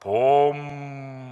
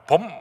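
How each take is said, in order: First: The word is drawn out long. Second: The word is cut off short.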